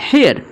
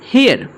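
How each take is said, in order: The two takes are said the same way.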